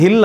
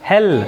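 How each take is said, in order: First: "ಹಿಲ್" with a short i in place of e; mispronounced hell. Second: "ಹೆಲ್" with an open e, not i; corrected pronunciation. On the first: Retold or imitated. Teacher echoing a pupil's slip for hell, "ಹಿಲ್" with an i vowel. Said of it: "ನೀನು pronounce ಮಾಡಿದ್ದು ಹಿಲ್ ಅಂತ". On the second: Shown as a demonstration. Teacher correcting a pupil's slip, "ಹೆಲ್" with a clear e vowel. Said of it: "ನೀನು ಹೇಳಬೇಕಾಗಿದ್ದು ಹೆಲ್".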